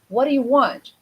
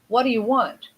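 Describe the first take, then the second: Both takes have the same delivery.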